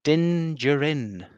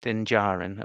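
First: "Din Djarin" drawn out slowly, second word like "juh-RIN"; mispronounced name. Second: "Din Djarin" with an open "JAR-in", slight rise; corrected pronunciation. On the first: Host introducing the Mandalorian by name, mispronounced "Djarin" as "juh-rin". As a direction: say "Din Djarin" slowly with a weak, blurred first vowel in "Djarin". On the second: Host copying the co-host's correction, "Djarin" said as "jar-in". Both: Real, not acted. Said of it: "liberties with the pronunciation there".

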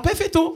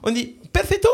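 First: "perfetto" said as pɛfɛto, lifted and bright Italian style; mock Italian perfetto. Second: "perfetto" with a rising question, pɛʁfɛt. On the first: Prank caller tries a fake accent on the owner, mock Italian. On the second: Pretend. Caller checks the word with the owner, rising question. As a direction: ask if "perfetto" is right, lifting the end.

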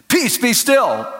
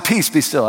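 First: High, firm rebuke; Peace, be still cried out with authority; ringing command. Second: Said in the usual way. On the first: Retold or imitated. Preacher rebuking the hail storm, commanding. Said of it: "I was trying to remember". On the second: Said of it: "That's what I said. P, I was trying to remember".

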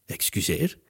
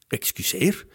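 First: Quieter startled query, pitch rising at the end; taken-aback question. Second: Higher, more insistent question with a rising end; slightly louder call. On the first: Narrator's hero reacts to news of the paper, taken aback. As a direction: softly ask in disbelief. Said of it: "deze keer iets luider". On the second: Narrator's hero questions the move to New York, slightly louder. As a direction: repeat it a little louder in disbelief. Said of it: "riep ik opnieuw, maar deze keer iets luider". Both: A narrator's reading.

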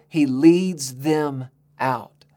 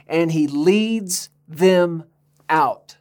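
First: "He leads them out" said very slowly, leaning on "leads"; slow emphasis. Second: "And he leads them out" drawn out very slowly; slow emphasis. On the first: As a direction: draw out "leads" with weight. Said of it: "And what does he do?". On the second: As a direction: stretch "leads them out" word by word. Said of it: "Now listen to this". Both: Shown as a demonstration.

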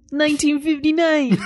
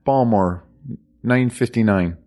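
First: A light mock Baltimore accent; half-laughing Baltimore accent read. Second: "Balmore" with no T, then "nine fifty-nine"; "Balmore" said the local way; local pronunciation. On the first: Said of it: "I was trying to do a Baltimore accent". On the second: Shown as a demonstration. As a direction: drop the T in "Balmore". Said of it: "There's no T in Baltimore".

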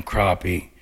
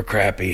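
First: "crappie" with first vowel as in father; "crappie" as croppy. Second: "crappie" with first vowel as in cat; "crappie" as crappy. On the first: Angler listing river fish, "crappie" pronounced croppy. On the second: Angler offering the other pronunciation, "crappie" rhyming with happy. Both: Shown as a demonstration. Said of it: "however y'all wanna say it".

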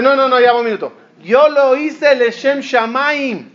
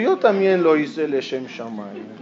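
First: Insistent protest. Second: Lower, softer counter-claim; calm reply. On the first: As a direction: stretch it out, emphatic and self-righteous. One side of a retold quarrel. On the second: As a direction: answer back evenly, lower. The other side's reply. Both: Retold or imitated.

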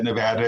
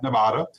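First: "Nevada" with middle A as in "cat"; correct state pronunciation. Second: "Nevada" with middle A as in "father"; state mispronunciation. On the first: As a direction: say "Nevada" the local way, nuh-VAD-uh. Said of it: "You said Nevada and not Nevada". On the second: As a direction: say "Nevada" the outsider's way, nuh-VAH-duh. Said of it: "mispronounces it might get upcharged". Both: Shown as a demonstration.

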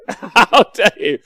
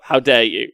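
First: How dare you laughed out, slow and high; play-offended through a laugh; laughing, mock-scandalised How dare you; laughing mock outrage. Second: Said in the usual way.

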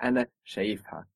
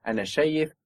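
First: In شايفها the accent moves down, said fast and softer; stress moved down. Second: Accent on شايف in أنا شايف; stress shift. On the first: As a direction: shift the stress later in شايفها. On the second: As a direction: stress شايف on its first syllable. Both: Shown as a demonstration. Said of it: "the accent moving down".

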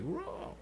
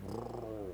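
First: High-pitched soft roar; high Wookiee roar. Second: Wookiee roar. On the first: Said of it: "and it's like". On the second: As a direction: growl like Chewbacca. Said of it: "he's just like". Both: Retold or imitated.

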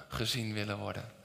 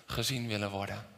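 Both takes have the same delivery.

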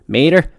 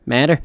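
First: "Mather" said MAY-der, long A with a D sound. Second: "Mather" said MAD-uh, short A with a soft ending. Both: Shown as a demonstration. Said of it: "M A T H E R".

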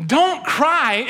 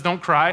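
First: "Don't cry" thrown back high and louder in disbelief; incredulous mourners. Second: Said in the usual way. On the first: Retold or imitated. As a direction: repeat "Don't cry" as if it's absurd. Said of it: "they're going". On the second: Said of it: "Jesus shows up and says".

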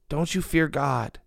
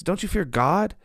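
First: Slow, even "Don't you fear God?" with a falling end; stress on God. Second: "Don't you fear God?" higher, rising on fear; stress on fear. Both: Shown as a demonstration. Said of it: "Not don't you fear your circumstance".

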